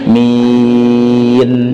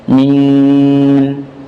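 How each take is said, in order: First: The final n is short and clean. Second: The word is spoken through the nose. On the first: The speaker calls it right. "Akhiri dengan huruf nun" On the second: The speaker calls it wrong. "membaca dengan rongga hidung, khayshum"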